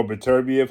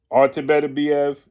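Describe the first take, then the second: First: "Beterbiev" as buh-TER-bee-ev; alternative pronunciation. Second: "Beterbiev" with four beats, BEH-teh-bee-EV; first pronunciation. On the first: Boxing commentator offering another way to say the name, alternative pronunciation. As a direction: stress the TER in "Beterbiev", with an r-coloured vowel. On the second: Boxing commentator offering one of two name pronunciations, first pronunciation. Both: Shown as a demonstration. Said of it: "however you so choose to pronounce his name".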